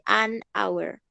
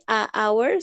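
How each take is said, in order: First: "an" stressed, linked into "awer"; teacher stressing the an in "an hour"; correct "an hour". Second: "a hour" with a bare drawn-out "a" before hour; teacher showing the wrong "a hour"; wrong article form. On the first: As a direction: lean on "an" in "an hour". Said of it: "sino se dice an hour". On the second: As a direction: say "a hour" as the mistake to avoid. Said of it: "No se dice a hour". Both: Shown as a demonstration.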